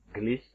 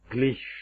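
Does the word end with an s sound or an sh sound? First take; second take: s; sh. First: The word ends without an sh sound. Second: The word ends with an sh sound. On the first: The speaker calls it wrong. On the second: The speaker calls it right.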